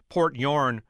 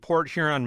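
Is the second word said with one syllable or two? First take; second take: one; two. First: The second word is squeezed into one syllable. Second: The second word has two full syllables.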